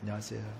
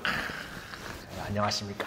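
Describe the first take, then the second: First: The greeting sounds listless and routine. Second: The greeting sounds eager and energetic.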